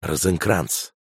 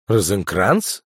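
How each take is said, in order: First: Said in the usual way. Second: «Розенкранц?» asked back with a rising, questioning tune; surprised echo. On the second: Acted. Kukurator repeats the name back to the spy chief, incredulous. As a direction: echo «Розенкранц?» in mild disbelief. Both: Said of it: "переспросил Кукуратор".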